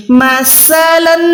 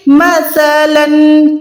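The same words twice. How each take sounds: First: مثلاً with a hard س sound, wrong; مثلاً mispronounced with plain س; wrong take. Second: مثلاً with a soft lisped ث; tongue between teeth for مثلاً; مثلاً slow, gentle ث; soft tha. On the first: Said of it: "بہت غلط غلطی". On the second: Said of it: "سا soft یعنی نرمی سے". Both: Shown as a demonstration.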